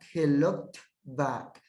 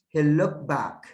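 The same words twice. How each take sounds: First: The t sound at the end of looked is pronounced. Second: The t sound at the end of looked is dropped.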